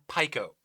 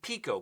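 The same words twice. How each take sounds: First: The i is not said as 'ee'. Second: The i is said as 'ee'. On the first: "I have always said pico. Is that incorrect?" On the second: "the I is pronounced E. That's how you pronounce it"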